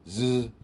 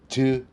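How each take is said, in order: First: The z is a continuous buzz with no stop. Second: The z starts with a brief tongue stop. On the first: The speaker calls it right. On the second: The speaker calls it wrong.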